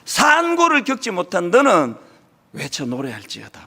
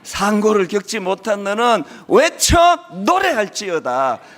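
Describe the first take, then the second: First: The emphasis falls on the opening words. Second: The emphasis falls on the closing words. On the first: The focus is on the pain of barrenness. "액센트가 처음 앞에 가 있는" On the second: The focus is on the call to sing. "액센트가 달라지는 거예요"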